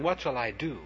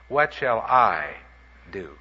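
First: The stress falls on the word do. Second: The stress falls on the word I. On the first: It asks which action to take. "I've been emphasizing" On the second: It asks about the speaker's own personal path. "let's put the emphasis on the I"

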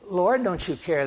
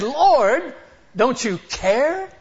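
First: It is said in a calm, mild tone. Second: It is said in a sharp, rebuking tone. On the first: A gentle question. The speaker calls it wrong. "He didn't say it that way" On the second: A rebuke. The speaker calls it right. "He was rebuking Jesus"

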